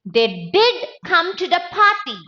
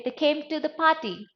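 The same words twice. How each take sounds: First: DID punched, then high to the end; stress on DID. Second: Said in the usual way. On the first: Shown as a demonstration. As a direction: insist on DID with raised voice. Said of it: "I want to give emphasis". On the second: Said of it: "but no emphasis".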